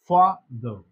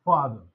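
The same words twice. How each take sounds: First: "Father" split as fa, then ther; pause between syllables. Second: Said in the usual way. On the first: Shown as a demonstration. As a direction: break "Father" with a tiny pause after "Fa".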